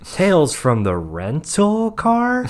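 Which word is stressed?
Rental. The stress is on the word rental.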